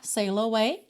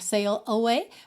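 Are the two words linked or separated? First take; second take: linked; separated. First: The two words are joined together. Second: The two words are said separately. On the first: "fica mais fácil juntar sail away" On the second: "Poderia ser sail away"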